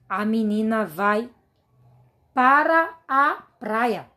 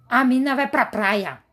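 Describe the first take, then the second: First: The words 'para a' are said more fully. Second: The words 'para a' are clipped and reduced. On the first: "É como se a gente dissesse assim na linguagem informal" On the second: "tem gente que nem pronuncia assim, ... essa é a forma absurda de se pronunciar"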